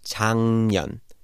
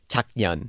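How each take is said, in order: First: The first syllable ends in an NG sound. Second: The first syllable ends in a K sound. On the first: The speaker calls it right. "The 기억 turns into like a ng sound because the N is following" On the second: The speaker calls it wrong. "But it's not pronounced 작년"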